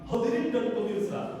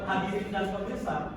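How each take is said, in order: First: The opening h sound is clear. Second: The opening h sound is weak. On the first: The speaker calls it right. "ucapan huruf H" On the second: The speaker calls it wrong.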